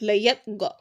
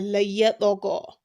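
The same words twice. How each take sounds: First: The consonant is closed off with no bounce. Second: The consonant is released with an echoing bounce. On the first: The speaker calls it wrong. "you just tie it up immediately and go like" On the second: The speaker calls it right. "you make the qalqala"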